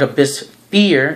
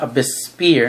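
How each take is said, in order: First: The last word begins with an f sound. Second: The last word begins with an sp sound. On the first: The speaker calls it right. "I call it Abyss Fear" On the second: The speaker calls it wrong. "not Abyss Spear"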